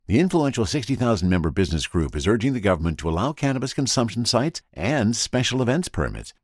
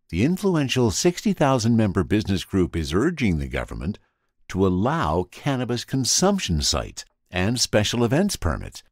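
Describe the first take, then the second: First: It is read too fast. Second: It is read more slowly.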